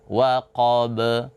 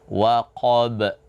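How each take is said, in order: First: The final b ends with an added vowel. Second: The final b ends with a glottal catch. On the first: "seperti kita membaca be" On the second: "seperti ada huruf hamzah"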